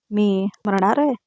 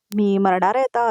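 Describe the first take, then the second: First: Slow, drawn-out question with a rising end; mocking echo question. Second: Said in the usual way. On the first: A narrator's reading. Sayali throws Priya's fear back at her, lightly mocking.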